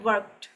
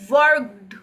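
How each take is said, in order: First: The word ends with a light t sound. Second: The word ends with a forced d sound. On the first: The speaker calls it right. "हम इसको बोलते हैं वर्कड" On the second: The speaker calls it wrong. "बहुत force लगा के बोलना पड़ेगा"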